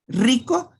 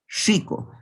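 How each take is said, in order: First: The r is a plain trilled r. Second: The r is hissed like a sibilant. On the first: "no es lo mismo decir rico" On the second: "la R, o sea, sibilada"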